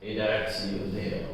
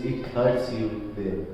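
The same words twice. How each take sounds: First: Very soft, low and gentle; quiet old man. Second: Said in the usual way. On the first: Shown as a demonstration. Old bootmaker pressing the sore spot, quietly. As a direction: murmur it knowingly. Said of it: "this accent". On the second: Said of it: "That means".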